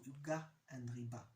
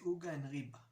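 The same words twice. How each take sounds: First: The stress falls on the final syllables. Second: The stress falls on the second-to-last syllables. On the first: It is the standard form. "as opposed to uga and riba" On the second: It sounds low class or slangy. "if you're more low class, you say uga and riba"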